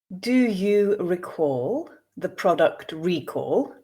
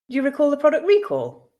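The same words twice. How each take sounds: First: The sentence is read slowly. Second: The sentence is read at a natural pace. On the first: "I will read once slowly for you to grasp the meaning" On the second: "two more times at a more natural pace"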